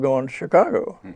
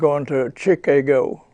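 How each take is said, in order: First: It is said with a native pronunciation. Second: It is said with a foreign pronunciation. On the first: The speaker calls it right. "instead of" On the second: The speaker calls it wrong. "if a foreigner were to come over here and say"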